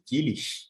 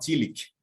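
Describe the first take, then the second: First: The name ends with a soft hissing German sound. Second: The name ends with a hard English k sound. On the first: "tentando se aproximar daquela pronúncia mais alemã" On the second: "de uma maneira mais inglesada... como se fosse um Kali no final"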